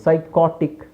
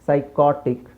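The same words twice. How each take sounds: No difference in how they are said.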